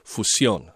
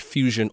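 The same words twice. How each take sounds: First: The word is pronounced the Spanish way. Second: The word is pronounced the English way. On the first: "it could be said in both English and Spanish" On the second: "it could be said in both English and Spanish"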